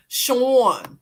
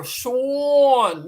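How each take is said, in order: First: Louder "Sean" in a falling Philly aw; Philly accent. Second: Loud "Sean" drawn long with a broad aw; Philly accent. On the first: Calling out to a viewer in a Philly accent. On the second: Showing viewers the Philly "Sean", louder and stretched. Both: Shown as a demonstration. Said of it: "that's how we say it in Philly".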